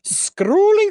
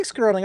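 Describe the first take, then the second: First: Scrolling sung out high and loud; mock exclaim. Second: Said in the usual way. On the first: Real, not acted. Host jokes about weekend social media, Scrolling pitched high. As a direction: lift Scrolling up high and loud like a sigh of fatigue.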